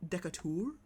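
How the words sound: The name is said with a French pronunciation. The speaker calls it wrong. "in France you'd pronounce it Decatur"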